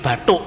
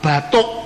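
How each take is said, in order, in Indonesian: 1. Diucapkan dengan logat Bali. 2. Diucapkan dengan logat bahasa Indonesia baku. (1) "Orang Bali tidak bisa ngomong huruf D dan T" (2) "nggak bisa"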